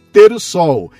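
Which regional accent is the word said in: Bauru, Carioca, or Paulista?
Paulista. It is said in a Paulista regional accent. "paulista chama de"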